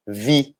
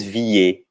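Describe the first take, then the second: First: "vi" em uma só sílaba, parando no I; E final mudo. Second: "vie" errado, em duas sílabas, "vi-ê"; E final pronunciado. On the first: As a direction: diga "vi" sem nenhum E depois. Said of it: "a gente pronuncia vi". ("vi" à francesa, só com o som de I) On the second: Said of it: "a gente não diz vie". ("vie" com um E audível depois do I) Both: Shown as a demonstration.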